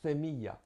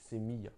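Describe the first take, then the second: First: The first sound is a lisped th. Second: The first sound is a plain s. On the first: This is how it is said in Andalusia. "ils peuvent prononcer comme le, le, le C, avec un C" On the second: This is how it is generally said in the Spanish-speaking world. "ils prononcent comme un S normal"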